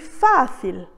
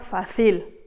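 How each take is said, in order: First: The stress is on the first syllable. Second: The stress is on the second syllable. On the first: The speaker calls it right. "j'ai dit fácil" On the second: The speaker calls it wrong. "et non pas fácil"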